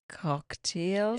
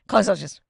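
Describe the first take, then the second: First: It is said slowly and deliberately. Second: It is said at a normal, quick pace.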